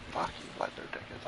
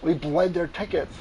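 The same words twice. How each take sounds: First: Whisper. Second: Said in the usual way. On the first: Real, not acted. Whispered repeat of the line.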